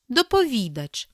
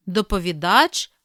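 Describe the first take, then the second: First: Доповідач as dopo-VI-dach; stress on VI. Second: Доповідач as dopovi-DACH; last-syllable stress. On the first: Teacher giving the other variant, VI stressed in доповідач. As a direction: stress the third syllable VI in доповідач. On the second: Teacher reading double-stress words, final stress on Доповідач. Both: Shown as a demonstration. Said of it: "слова із подвійним наголосом".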